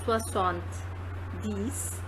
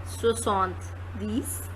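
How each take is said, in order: First: «Soixante-dix» very slow and softer. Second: «Soixante-dix» said slowly. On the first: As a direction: echo «Soixante-dix» slowly and softly. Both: Shown as a demonstration. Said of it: "model word for seventy".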